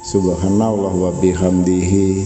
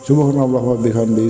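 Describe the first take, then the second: First: It is recited slowly and calmly. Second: It is recited very fast and rushed. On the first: The reciter reflects on the meaning of the words. The speaker calls it right. "Gak usah keburu-buru saudaraku ya, santai" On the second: The reciter only rushes to reach a count. The speaker calls it wrong. "seperti motor G P balapan"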